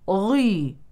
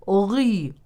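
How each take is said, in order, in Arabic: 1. صوت gh مُفخَّم بمبالغة شديدة. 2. صوت gh مُفخَّم بمبالغة شديدة.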